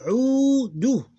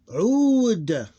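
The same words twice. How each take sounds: First: Udu high and loud, long "uu" then short "du"; open ending. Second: Ud high, loud and long, closed on D; closed ending. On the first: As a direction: stretch the start of Udu, then add "du". Teacher demonstrates open form. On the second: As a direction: hold Ud and stop on the D. Teacher demonstrates closed form. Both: Shown as a demonstration.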